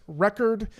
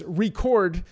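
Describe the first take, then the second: First: "Record" as the noun, stress on the first syllable, REH-kerd. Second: "record" as the verb, stress on the second syllable, ri-CORD. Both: Shown as a demonstration. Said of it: "you could actually read it as".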